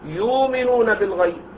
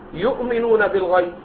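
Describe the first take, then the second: First: The glottal stop in the first word is softened away. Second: The glottal stop in the first word is fully pronounced. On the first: "والتسهيل" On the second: "بين التحقيق"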